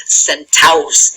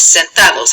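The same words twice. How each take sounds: First: "centaus" as Spanish sen-TA-os, no d; "centaus" with the d chopped out; D dropped. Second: "sentados" with the d still sounded before -os; "sentados", d not yet dropped; D left in. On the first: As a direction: run the a straight into -os in "centaus". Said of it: "So we chop that off". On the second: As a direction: say "sentados" in three syllables, keeping the d. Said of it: "we drop the D for reflexives". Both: Shown as a demonstration.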